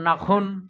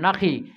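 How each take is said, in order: First: The word ends in an un sound. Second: The word ends in a short i sound. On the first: A case ending changes the call. The speaker calls it wrong. "এরকম হয়ে গেল, আওয়াজ পাল্টে গেল না" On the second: It is the real call used to make a camel kneel. The speaker calls it right. "নুনে জবর আর খয়ে জের"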